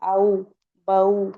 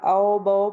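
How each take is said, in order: First: "औ, बऊ" with a gentle glide from a into u; correct leen reading. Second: "औ, बऊ" flattened into open o sounds; wrong "aw, baw" without the u glide; majhool reading. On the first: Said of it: "कैसे पढ़ेंगी?". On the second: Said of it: "तो ये मजहूल हो जाएगा". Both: Shown as a demonstration.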